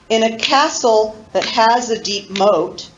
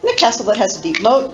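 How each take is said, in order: First: It is recited slowly, clapping the rhythm. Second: It is recited at the fastest speed.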